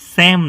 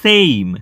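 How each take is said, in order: First: The vowel stays pure, like 'sem'. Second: The vowel glides toward an 'ee' sound. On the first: The speaker calls it wrong. "સેમ નહીં કહેતા" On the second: The speaker calls it right. "સે અને જોડે થોડો ઈનો ઉચ્ચાર"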